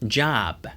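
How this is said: An American accent, with an open 'ah' vowel. "미국식으로는요, ... 아와 같은 소리가 등장을 하고요"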